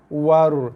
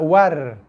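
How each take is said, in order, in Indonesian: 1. Bunyi r-nya diucapkan berat dan tebal. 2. Bunyi r-nya diucapkan ringan dan tipis. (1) "ro sini pula tebal" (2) "kalau war ro nipis"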